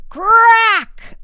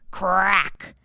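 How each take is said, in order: First: A big, high, loud CRACK shouted out; louder crack. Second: Loud crack. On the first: Narrator voicing the egg cracking open, a loud high crack. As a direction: make the second crack ring out far louder. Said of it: "this time louder than before". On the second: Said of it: "It was louder than one hundred firecrackers". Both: A narrator's reading.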